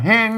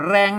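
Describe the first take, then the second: First: The word begins with an h sound. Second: The word begins with an r sound. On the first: This is the Northern Thai reading. "อันเมืองก็แฮง" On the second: This is the Central Thai reading. "อันไทยก็แรง"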